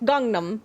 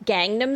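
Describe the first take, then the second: First: Gangnam is given a Korean-style pronunciation. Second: Gangnam is given an Americanized pronunciation. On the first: The speaker calls it right. "He clearly says Gangnam" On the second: The speaker calls it wrong. "I get really annoyed when I hear people say, like"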